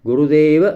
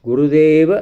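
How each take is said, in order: No difference in how they are said.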